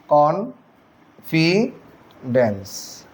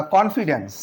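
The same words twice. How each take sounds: First: Very slow, each syllable of confidence stretched apart; syllables drawn out. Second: Said in the usual way. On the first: Shown as a demonstration. Teacher showing students the syllables of confidence, very slowly. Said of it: "উচ্চারণটা খেয়াল করেন". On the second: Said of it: "teacher demonstrating syllables".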